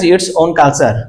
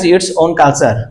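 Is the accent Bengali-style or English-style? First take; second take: Bengali-style; Bengali-style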